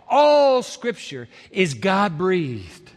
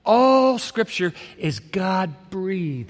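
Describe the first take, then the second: First: All scripture is God-breathed, drawn out very slowly; slow, savored. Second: A second very slow reading, each word weighed; slow, savored. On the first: Preacher lingers on the verse for his listeners, slow and savoring. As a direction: let each word sink in slowly. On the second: Preacher repeats the verse to the congregation, slow and weighty. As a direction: repeat it slowly so it lands. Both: Shown as a demonstration. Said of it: "savor that thought for a moment".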